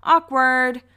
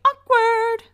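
First: A quick loud "awkward" quip; casual awkward. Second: High, loud yelled "awkward"; [name] yell. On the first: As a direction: drop awkward like a punchline. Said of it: "we could just go". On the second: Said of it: "[name] will always say". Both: Retold or imitated.

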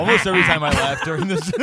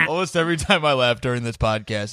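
First: Mock giggly, higher and quicker; laughing through words. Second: Said in the usual way. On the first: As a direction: talk through a put-on laugh. Joking about the fake laugh.

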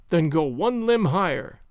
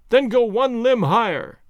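First: Said in the usual way. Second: Higher, louder, drawn-out order; calling up. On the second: A narrator's reading. Legrand ordering the climber one limb higher, calling up. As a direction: call it slowly up to someone overhead. Order repeated, called up the tree.

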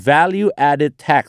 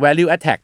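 First: "value added tax" as val-yoo add-ed taks; correct full endings. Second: "value add tax" as val-loo-at-tack; mispronounced, endings dropped. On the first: Host teaching the tax term, correct full endings. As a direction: sound the -ed in "added" and the final s in "tax". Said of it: "แต่ถ้าออกเสียง value add tax เนี่ย". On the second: Host showing what confuses foreigners, mispronounced, endings dropped. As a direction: drop the -ed and the final s, so it sounds like attack. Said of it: "ถ้าออกเสียง value add tax เนี่ย ฝรั่งก็จะงง". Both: Shown as a demonstration.

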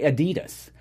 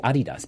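First: Adidas stressed on the middle syllable; American pronunciation of Adidas. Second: Adidas stressed on the first syllable; German pronunciation of Adidas. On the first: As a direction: say Adidas as uh-DEE-dus. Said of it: "a lot of Americans say". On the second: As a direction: say Adidas as AH-dee-das. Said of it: "But it's actually". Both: Shown as a demonstration.

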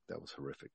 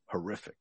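First: Hushed aside, breath only; whispered. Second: Said in the usual way. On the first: Real, not acted. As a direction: whisper it in disgust. Repeated verdict, now whispered.

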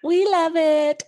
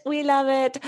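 First: Voice changes mid sentence. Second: Said in the usual way. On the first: Real, not acted. Playful high exclamation.

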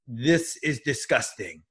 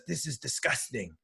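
First: Put-on slow, sheepish French-accented English; drawn-out French accent, caught in the act; imitating a French philosopher's accent, slowly. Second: Put-on much softer French-accented aside; hushed French accent, almost to himself; imitating a French accent, hushed; quiet French accent. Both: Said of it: "in English with a French accent".

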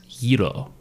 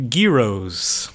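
First: "Gyro" with a soft start, YEE-roh; corrected pronunciation. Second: "Gyros" with a hard g, GHEE-rohz; hard-g pronunciation. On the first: Shown as a demonstration. Correcting a friend, "Gyro" said YEE-roh without the g. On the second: Real, not acted. Shouting out Greek food, "Gyros" said GHEE-rohz with hard g. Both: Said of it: "I think it's Gyro".

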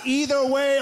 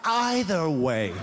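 First: "Either" said as EE-ther, stretched; EE-ther pronunciation. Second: "either" said as EYE-ther, drawn out; EYE-ther pronunciation. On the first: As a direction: begin "Either" with a long ee vowel. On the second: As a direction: begin "either" with a long eye vowel. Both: Acted. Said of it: "And then I ask".

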